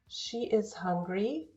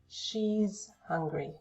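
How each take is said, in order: First: The verb is a separate full syllable. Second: The verb is joined to the pronoun. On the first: "the long forms" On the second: "the shorter forms"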